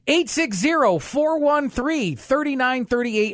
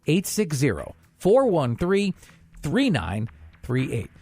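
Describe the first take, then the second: First: The number is said at a faster pace. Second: The number is said at a slower pace.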